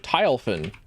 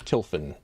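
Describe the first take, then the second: First: The first syllable sounds like 'tile'. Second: The first syllable sounds like 'till'. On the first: This is how newcomers misread the name. The speaker calls it wrong. "people first see my username, it's like, oh" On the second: This is how the owner pronounces the name. The speaker calls it right. "how do I pronounce my username?"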